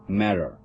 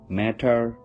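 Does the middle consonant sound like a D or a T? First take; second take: D; T. First: The middle consonant sounds like a D. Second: The middle consonant is a clear T. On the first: "T sound like a D" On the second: "we sound T as in T"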